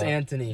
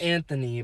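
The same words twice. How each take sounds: First: The middle consonant is a plain 't' sound. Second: The middle consonant is a 'th' sound. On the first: This is the name's actual pronunciation. The speaker calls it right. "I know it's" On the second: This is how most people say it. The speaker calls it wrong. "everyone says"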